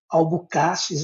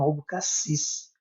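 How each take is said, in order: First: The stress is on the second-to-last syllable. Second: The stress is on the last syllable. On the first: The speaker calls it wrong. "como sendo paroxítono" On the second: The speaker calls it right. "na verdade é oxítono"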